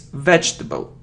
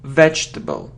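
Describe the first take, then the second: First: The j and t sounds join directly. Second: The j and t sounds join directly.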